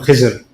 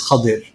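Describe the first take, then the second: First: The name is said with a z sound. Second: The name is said with a d sound. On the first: "Urdu speakers, South Asians, we call him Khizr" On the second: This is the correct form of the name. "the correct pronunciation in most of us is Khadir"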